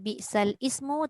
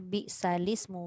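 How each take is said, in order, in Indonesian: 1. Kedua kata ini dipisah dengan hamzah di awal. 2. Kedua kata ini disambung dengan lancar tanpa jeda. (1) "jangan baca biksal ismu" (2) "kita kena baca biksalismu"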